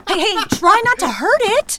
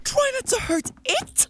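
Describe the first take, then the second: First: Loud high urgent plea; urgent shout. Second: Incredulous. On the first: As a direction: yell at him to be gentle. Pulling spider off. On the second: Incredulous echo of her. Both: Acted.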